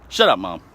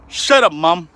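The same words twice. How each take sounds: First: Said in the usual way. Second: "Shut up, Mom" yelled higher and louder; loud retort. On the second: Retold or imitated. Son yelling back at his mom, louder and higher. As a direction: bark "Shut up, Mom" up high.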